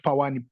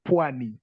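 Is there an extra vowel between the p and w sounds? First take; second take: yes; no. First: An extra vowel separates the p and w. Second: The p and w are joined directly. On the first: The speaker calls it wrong. "not pawani" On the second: The speaker calls it right. "pwani is called pwani"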